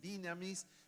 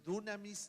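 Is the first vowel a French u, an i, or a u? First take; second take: i; u. First: The first vowel is a plain i sound. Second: The first vowel is a plain u sound. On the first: "ni dinamis" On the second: "no es ni dunamis"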